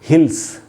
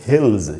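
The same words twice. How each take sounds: First: The word ends with an s sound. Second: The word ends with a z sound. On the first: The speaker calls it wrong. "इसको हिल्स नहीं बोलना चाहिए" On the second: The speaker calls it right. "उससे ज का sound बनेगा"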